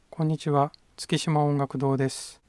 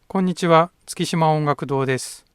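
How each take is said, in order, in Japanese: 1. この声は中くらいの大きさです。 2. この声は大きくて、はっきりしています。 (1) "中くらいに声を出してみます。" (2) "この声は大きく出して収録しています。"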